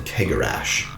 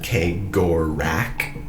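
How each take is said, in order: First: The final ch is said as sh. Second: The final ch is said as k. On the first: This is the speaker's own preferred pronunciation. "I've always said Kegarash" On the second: This is the official pronunciation. "The main audio that's official pronounces it Kegorak"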